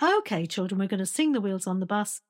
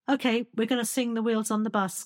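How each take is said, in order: First: It is said higher, scooping up musically. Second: It is said in a low, flat speaking voice.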